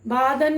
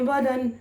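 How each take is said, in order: First: The first vowel is drawn out long. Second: The first vowel is short and light. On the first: The speaker calls it wrong. "नहीं बोलेंगे" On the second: The speaker calls it right. "बोलेंगे बदन"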